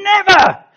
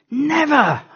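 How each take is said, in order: First: Very high, very loud cry of "Never!"; full shout. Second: High, loud shout of "Never!". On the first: Preacher acting Paul standing up to refuse, shouting. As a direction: stand up and bellow it. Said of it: "he'd be standing up going". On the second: Preacher showing how Paul would shout, loud and high. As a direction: yell it out at the top of your voice. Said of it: "at the top of his voice". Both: Shown as a demonstration.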